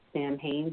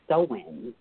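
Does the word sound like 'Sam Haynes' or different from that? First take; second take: Sam Haynes; different. First: The word sounds like the name Sam Haynes. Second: The word does not sound like Sam Haynes. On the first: The speaker calls it wrong. "I kept pronouncing it like Sam Haynes" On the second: The speaker calls it right. "but it's Samhain"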